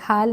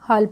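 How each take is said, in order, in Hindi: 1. स्वर एक खुली 'aa' ध्वनि है। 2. स्वर एक गोल 'aw' ध्वनि है। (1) "हाल नहीं पढ़ेंगे" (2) "हम इसको H A double L हॉल पढ़ेंगे"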